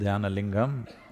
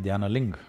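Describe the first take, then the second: First: The word is said with its final syllable. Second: The word is said without its final syllable.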